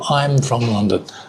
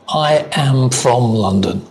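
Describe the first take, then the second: First: I and am merge into one syllable. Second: I and am are said as separate words.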